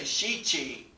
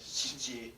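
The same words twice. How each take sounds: First: The i vowels are fully voiced. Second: The i vowel is nearly silent. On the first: The speaker calls it wrong. "they don't say shichi" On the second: The speaker calls it right. "It's actually more like a shichi"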